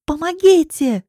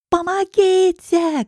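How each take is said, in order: First: High, loud, drawn-out cry for help; scream for help. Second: Very high, very slow, loud wail for help; a last desperate cry; desperate scream. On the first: Girl dragged to a car, screaming for help. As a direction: shout for anyone to hear. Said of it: "кричу я". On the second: Girl about to be shoved into the car, screaming desperately. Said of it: "кричу я отчаянно". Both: Acted.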